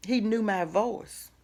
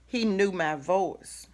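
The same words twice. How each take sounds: The two takes are said the same way.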